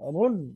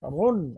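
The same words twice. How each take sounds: The two takes are said the same way.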